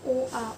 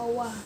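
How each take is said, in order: First: The two vowels are said as separate sounds. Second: The two vowels run together into one 'wa'.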